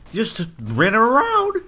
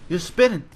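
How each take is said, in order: First: Drawn-out high dizzy voice; high, slow wobbly voice. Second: Said in the usual way. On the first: Acted. Spinning dizzy in game.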